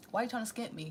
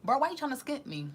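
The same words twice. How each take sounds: First: Calmer repeat. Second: Louder, higher indignant challenge to the dealer; loud indignant bro callout; annoyed callout. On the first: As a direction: press the point again, settled. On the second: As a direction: call out the shorting plug, offended. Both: Retold or imitated. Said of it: "and you like".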